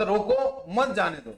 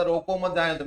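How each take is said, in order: First: "रोको" punched, pause, then "मत जाने दो"; pause after रोको. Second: "रोको मत जाने दो" run on, no break after रोको; no emphasis on रोको, phrase flows on; मत joined to रोको. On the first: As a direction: make रोको its own order, group मत with जाने दो. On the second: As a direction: quote it quickly with मत attached to रोको. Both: Retold or imitated. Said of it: "दोनों में बहुत फर्क हुआ".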